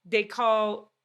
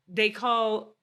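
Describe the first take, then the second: No difference in how they are said.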